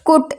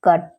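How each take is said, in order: First: The vowel sounds like 'oo' in 'put'. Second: The vowel sounds like 'uh' in 'cup'. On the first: The speaker calls it wrong. "हम लोग इसको बुट कुट इस type से नहीं पढ़ेंगे" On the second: The speaker calls it right. "C यू T, कट"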